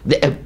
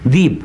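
First: The glottal stop is pronounced in the word. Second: The glottal stop is dropped from the word. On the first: "الهمزه توجعه، ذئب ايه ده؟" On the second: "ذيب خلاص سهله"

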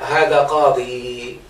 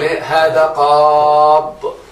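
First: The word ends in a long final ee vowel. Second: The word ends in a consonant with no final vowel. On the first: The speaker calls it wrong. "وممكن تقول هذا قاضي" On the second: The speaker calls it right. "وحذف ياء المنقوص بالتنوين ما لم ينصب اولى"

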